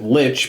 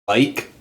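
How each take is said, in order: First: The word ends with a ch sound. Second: The word ends with a hard k sound. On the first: This is how English speakers say it. "English ... pronounce it lich" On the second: This is how the original language says it. "supposed to be pronounced like"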